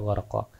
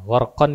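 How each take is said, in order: First: The word ends on a vowel. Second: The word ends with an n sound. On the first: This is the form used when stopping. "gharqan dibaca gharqa" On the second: This is the full form before a stop. "gharqan dibaca gharqa"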